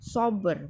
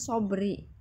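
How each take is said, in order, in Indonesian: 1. Kata ini berakhir pada konsonan terakhir. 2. Kata ini berakhir dengan vokal tambahan. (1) "Sober, bukan sobri ya" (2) "bukan sobri ya"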